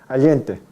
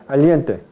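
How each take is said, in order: Both takes have the same delivery.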